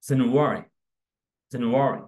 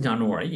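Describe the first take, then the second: First: জানুয়ারি said English-style as "ZEN-u-wari"; correct English pronunciation. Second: Said in the usual way. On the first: Shown as a demonstration. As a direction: say জানুয়ারি loud and separate, opening with "zen", not "jaa". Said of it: "exact pronunciation হচ্ছে". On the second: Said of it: "usually আমরা এইভাবে উচ্চারণ করতাম".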